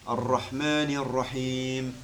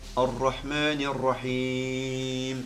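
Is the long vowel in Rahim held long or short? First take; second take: short; long. First: The long vowel is held for two beats. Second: The long vowel is held for six beats. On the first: "2 temps" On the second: "Ça c'est quand tu le fais 6 temps"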